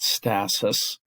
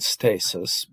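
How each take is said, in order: First: The word has the other, non-Latin pronunciation. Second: The word has its Latin-tradition pronunciation. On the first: "but I I'm I pronouncing it stasis" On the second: "if you are um, speaking in the Latin tradition"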